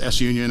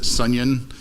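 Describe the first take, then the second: First: The S is said as a separate letter. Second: The S is blended into one word. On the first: "S set union is S union" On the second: "I like to pronounce it sunyon"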